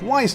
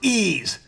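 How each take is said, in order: First: The name is said like 'wise'. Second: The name is said like 'ease'. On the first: The speaker calls it wrong. "I've been saying it wrong this whole time" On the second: The speaker calls it right. "it's pronounced ease"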